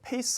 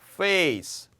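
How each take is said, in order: First: The word starts with a P sound. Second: The word starts with an F sound. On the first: The speaker calls it wrong. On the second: The speaker calls it right.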